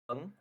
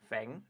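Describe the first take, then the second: First: The name is said with an 'eng' vowel. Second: The name is said with an 'ang' vowel. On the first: The speaker calls it right. "it's actually pronounced as Feng" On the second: The speaker calls it wrong. "rather than Fang"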